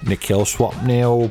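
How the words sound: It is said in a put-on British voice.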